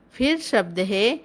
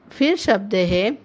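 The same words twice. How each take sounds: The two takes are said the same way.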